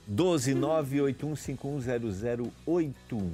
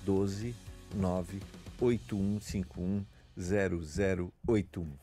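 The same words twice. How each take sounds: First: The number is said fast. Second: The number is said slowly.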